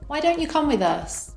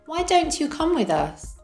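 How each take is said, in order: First: The words are linked and reduced together. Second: Each word is said separately and fully. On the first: "with connected speech" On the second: "without connected speech"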